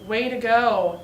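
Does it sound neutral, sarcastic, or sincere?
sarcastic. It is said with a sarcastic, mocking tone.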